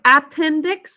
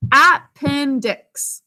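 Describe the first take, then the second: First: Said in the usual way. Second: Appendix drawn out slowly, every syllable clear, first a full; careful classroom Appendix with a full first vowel; slow spelling pronunciation. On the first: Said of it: "The first syllable is unstressed". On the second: Shown as a demonstration. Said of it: "we think of it as appendix".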